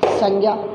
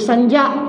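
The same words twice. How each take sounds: First: The cluster has its common everyday pronunciation. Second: The cluster has its traditional, original pronunciation. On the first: "लेकिन हम बोलते क्या हैं?" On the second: "मूलभूत रूप में तो इसका उच्चारण ऐसे होना चाहिए"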